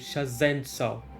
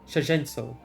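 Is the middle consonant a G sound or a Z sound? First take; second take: Z sound; G sound. First: It is said carefully with a Z sound. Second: It is said quickly with a G sound. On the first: The speaker calls it right. "but no" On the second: The speaker calls it wrong. "if I say it too quickly, it just becomes"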